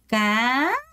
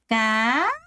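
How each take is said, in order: First: The pitch rises fully and clearly upward. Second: The pitch rises fully and clearly upward.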